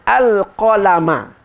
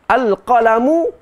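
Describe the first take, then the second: First: The word ends with a final 'a' vowel. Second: The word ends with a final 'u' vowel. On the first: The pen is the object of the verb create. "dibaca dengan mansub" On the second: The pen is the first thing that was created. "al-qalamu tu predikat"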